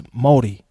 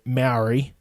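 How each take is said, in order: First: "Māori" with a rounded first vowel, like MOH-dee; New Zealand pronunciation. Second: "Maori" flattened to MARE-ee; outsiders' pronunciation. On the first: Explaining home usage, New Zealand "Māori" with rounded vowel. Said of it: "when you live in New Zealand, it's Māori". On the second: Showing what others say, "Maori" as MARE-ee. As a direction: say "Maori" as outsiders do, rhyming with dairy. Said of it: "a lot of people can say Maori". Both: Shown as a demonstration.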